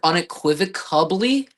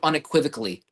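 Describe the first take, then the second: First: It is said with a B sound near the end. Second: It is said with an L sound near the end. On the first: The speaker calls it wrong. "with a B" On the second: The speaker calls it right. "instead of unequivocally"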